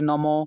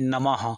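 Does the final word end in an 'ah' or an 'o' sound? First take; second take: o; ah. First: The word ends with an 'o' sound. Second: The word ends with an 'ah' sound. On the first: The speaker calls it wrong. "ଅଧିକାଂଶ ଲୋକ କ'ଣ କରନ୍ତି" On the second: The speaker calls it right. "ଏମିତି ଭାବରେ ହିଁ ଉଚ୍ଚାରଣ କରିବେ"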